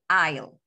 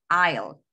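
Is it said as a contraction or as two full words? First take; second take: contraction; contraction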